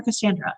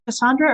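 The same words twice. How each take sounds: First: Cassandra said "kuh-SAN-druh", A as in "cat"; Cassandra with short A. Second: Cassandra said "kuh-SAHN-druh". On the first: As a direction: rhyme the middle of Cassandra with "sand". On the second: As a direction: say Cassandra with a broad "ah" in the middle. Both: Shown as a demonstration. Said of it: "don't wanna keep mispronouncing".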